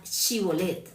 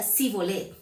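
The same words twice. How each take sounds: First: 'Shibolet' with a clear sh; correct Shibolet. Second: 'Sibolet' with a plain s instead of sh; mispronounced Shibolet. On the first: Shown as a demonstration. Preacher giving the correct password, 'Shibolet' with sh. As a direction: say 'Shibolet' with a proper sh sound. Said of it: "bien esa palabra Shibolet". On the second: Retold or imitated. Efraimite failing the password test, saying 'Sibolet' with s. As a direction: say 'Sibolet' with a hard s, no sh. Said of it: "no podían pronunciar, bien esa palabra Shibolet".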